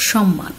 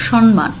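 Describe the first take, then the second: First: সম্মান said "shomman", with a long doubled m; সম্মান as "shom-man", the m doubled; correct pronunciation. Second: সম্মান said as "shonman", with an n before the m; সম্মান pronounced "shonman", n then m; common wrong pronunciation. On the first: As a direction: model it right: সম্মান with a held double m and no n. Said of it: "সঠিক উচ্চারণ". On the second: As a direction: demo the learners' mistake: সম্মান as "shon-man". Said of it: "এই উচ্চারণটিও তোমরা অনেকে ভুল করো". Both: Shown as a demonstration.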